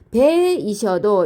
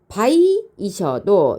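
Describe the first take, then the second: First: The first vowel is a single steady sound. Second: The first vowel glides from a to i. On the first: The speaker calls it wrong. "배이셔도 이렇게 읽으면 안 되고" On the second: The speaker calls it right. "바이이셔도 이렇게 읽어야 되겠죠"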